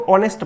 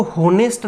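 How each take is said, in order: First: ऑनेस्ट with a silent h, opening on aw; correct pronunciation. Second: होनेस्ट with a voiced h at the start; wrong pronunciation. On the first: Teacher models the right way for students: ऑनेस्ट without h. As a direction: say ऑनेस्ट as "onest", no h sound. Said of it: "इसको ऑनेस्ट पढ़ते हैं". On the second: Teacher shows students the wrong way: होनेस्ट with an audible h. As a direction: say होनेस्ट as "honest" with the h sounded. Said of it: "इसको होनेस्ट नहीं पढ़ते हैं". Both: Shown as a demonstration.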